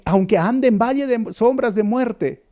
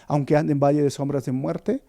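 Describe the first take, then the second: First: Aunque ande en valle de sombras de muerte proclaimed high and loud, each word pressed; fervent quote. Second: Said in the usual way. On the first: Acted. Preacher to his flock, proclaiming the psalm loudly. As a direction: cry the verse out like a rallying call.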